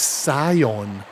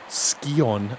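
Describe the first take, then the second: First: The first syllable sounds like "sigh". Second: The first syllable sounds like "ski". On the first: "It's Scion. That sounds a bit more sci-fi" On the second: "I like the name Ski-On better. Ski-On, ski-off"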